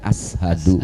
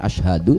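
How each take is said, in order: First: The middle consonant is a plain 's' sound. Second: The middle consonant is a 'sh' sound. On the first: The speaker calls it wrong. "bisanya sin gitu" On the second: The speaker calls it right. "sulit mengucapkan shin"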